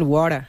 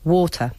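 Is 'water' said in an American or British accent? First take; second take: American; British. First: It is said with an American accent. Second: It is said with a British accent. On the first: "Los americanos dicen water" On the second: "pero los británicos es"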